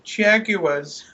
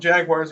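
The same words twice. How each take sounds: First: Jaguars is said with a British pronunciation. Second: Jaguars is said with an American pronunciation. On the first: A different team based in London. "we're the Jaguars" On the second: The usual team in Jacksonville. "we're not the Jacksonville Jaguars"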